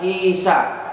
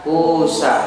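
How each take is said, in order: First: The first vowel is an i-sound. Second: The first vowel is a u-sound. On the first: The original letter is kept unchanged. "Sama seperti lafaz kisah" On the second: The letter is changed to waw. "bisa dibaca kusa"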